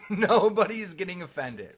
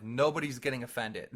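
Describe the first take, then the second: First: "Nobody's" punched higher and louder; emphatic repeat. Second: Said in the usual way. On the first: Real, not acted. Speaker insists on Xbox Live trash talk, emphatic "Nobody's". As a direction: hit "Nobody's" hard on a raised pitch.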